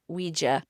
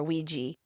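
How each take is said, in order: First: Ouija ending in uh; Ouija as WEE-juh. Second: Ouija ending in ee; Ouija as WEE-jee. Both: Shown as a demonstration. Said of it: "can be pronounced either way".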